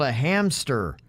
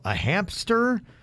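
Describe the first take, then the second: First: It is said with no P sound after the M. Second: It is said with a P sound after the M. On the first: The speaker calls it right. "It's called a hamster. There's no P" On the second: The speaker calls it wrong. "There's no P"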